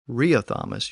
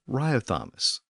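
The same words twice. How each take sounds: First: The name is pronounced the Latin way. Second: The name is pronounced the English way.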